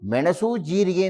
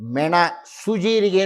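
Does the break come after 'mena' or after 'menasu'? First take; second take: after menasu; after mena. First: The break falls after the full word 'menasu'. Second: The break falls after the syllables 'mena'. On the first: The phrase is split into its two words. The speaker calls it right. "ಮೆಣಸು ಜೀರಿಗೆ ಅಂತ ಓದಬೇಕಲ್ವೇನ್ರಿ" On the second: The phrase is split in the wrong place. The speaker calls it wrong. "ಮೆಣ ಸುಜೀರಿಗೆ ಅಂತ ಓದಬಾರ್ದು"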